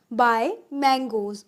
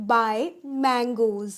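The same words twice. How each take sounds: The two takes are said the same way.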